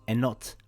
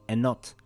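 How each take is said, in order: The two takes are said the same way.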